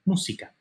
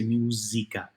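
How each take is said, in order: First: "Música" with a hissed S, MOO-see-ka; regular S. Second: "música" mispronounced as MOO-zee-ka; buzzy Z. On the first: Teacher modelling Spanish for learners, "Música" with a regular S. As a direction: keep the S of "Música" free of any buzz. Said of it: "Just like a regular S". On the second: Teacher showing learners the mistake, "música" with a buzzy Z. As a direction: buzz the S of "música" like an English Z. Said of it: "don't have a buzzy Z sound". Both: Shown as a demonstration.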